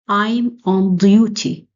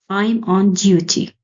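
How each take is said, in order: First: The D sound is heavy and exaggerated. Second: The D sound is said plainly and normally. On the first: "exaggerate the D sound. I want you to read with me" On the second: "I will read the, the sentences normally uh, in the standard sound"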